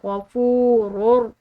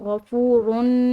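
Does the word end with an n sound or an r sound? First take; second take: r sound; n sound. First: The n is silent and the word ends in r. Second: The word ends with a clear n sound. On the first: The speaker calls it right. "रॉ को रॉ के साथ मिलाएंगे, तनवीन बिल्कुल खामोश हो जाएगी" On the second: The speaker calls it wrong. "इसको हम गफूरुन इस तरह नहीं पढ़ेंगे"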